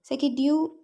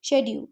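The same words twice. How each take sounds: First: The word begins with an sk sound. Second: The word begins with an sh sound. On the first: "एस के की आवाज़ के साथ" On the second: "श की आवाज़ के साथ"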